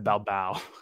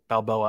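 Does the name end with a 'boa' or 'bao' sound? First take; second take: bao; boa. First: The name ends with a 'bao' sound. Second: The name ends with a 'boa' sound. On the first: The speaker calls it wrong. "I'm sorry, I said Balbao" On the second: The speaker calls it right. "Marcelo Balboa"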